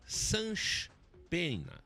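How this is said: It is said in a carioca accent.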